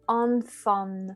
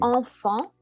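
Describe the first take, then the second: First: An N consonant is audibly pronounced. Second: Only nasal vowels, with no audible N. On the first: The speaker calls it wrong. "ils vont avoir envie de dire" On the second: The speaker calls it right. "un mot avec deux sons nasaux"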